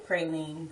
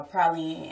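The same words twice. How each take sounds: First: "praline" as PRAY-leen; long A in "praline"; own pronunciation. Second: "praline" as PRAH-leen; relatives' pronunciation. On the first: Speaker showing her own way, "praline" as PRAY-leen. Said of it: "I say praline". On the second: Showing how relatives say it, "praline" as PRAH-leen. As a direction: open AH in "praline". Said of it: "relatives that say". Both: Shown as a demonstration.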